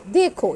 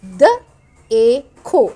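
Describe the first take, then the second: First: Said in the usual way. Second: द, ए, खो loud and separate with gaps; sounded out. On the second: Shown as a demonstration. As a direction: break देखो into द, ए, खो for a learner. (द ए खो अलग-अलग आवाज़ में) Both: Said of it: "ये भी देखें, यहाँ बड़ी ए की साउंड".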